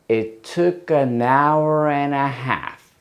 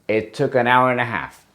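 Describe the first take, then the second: First: It is said slowly. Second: It is said at normal speed.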